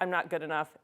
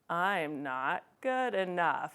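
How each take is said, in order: First: It is said at normal speed. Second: It is said really slowly.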